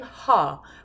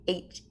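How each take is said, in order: First: The h sound is followed by a vowel. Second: The h sound is a bare puff of breath. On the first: The speaker calls it wrong. "Notice I'm not saying ha" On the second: The speaker calls it right. "but H"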